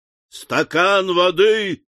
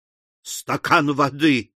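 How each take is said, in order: First: Raised, drawn-out angry call; higher, furious echo; enraged cry. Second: Unhurried, kindly appeal; mild, slow request. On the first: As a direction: cry it out in exasperation. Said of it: "вскричал взбешённый Уордль". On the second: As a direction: ask gently, drawing it out. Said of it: "попросил добрейший мистер Пиквик". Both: A narrator's reading.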